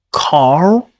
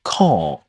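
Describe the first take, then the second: First: "car" with the R fully pronounced, American style; sounded final R. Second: "car" as "cah", long vowel and no r; dropped final R. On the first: Teacher shows the form before dropping R, sounded R. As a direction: say "car" louder, holding a strong final r. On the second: Teacher tells learners what you might say, R dropped. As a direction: say "car" lower and drawn out, R silent, British style. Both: Shown as a demonstration. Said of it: "Dropping the letter R at the end".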